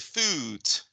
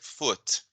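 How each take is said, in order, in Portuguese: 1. A vogal é longa, como em moon. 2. A vogal é curta e seca. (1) "eu não vou dizer foot, que nem moon" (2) "eu vou dizer foot, é um pouquinho mais curto"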